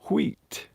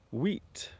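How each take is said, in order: First: It starts with a breathy, blown w sound. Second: It starts with a plain w sound.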